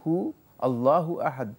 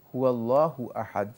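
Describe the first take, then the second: First: No 'wa' sound comes between 'hu' and 'allahu'. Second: A 'wa' sound links 'hu' and 'allahu'. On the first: The speaker calls it wrong. "নয়" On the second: The speaker calls it right. "ওয়া এর উপর জবর হবে"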